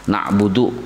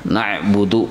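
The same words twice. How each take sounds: No difference in how they are said.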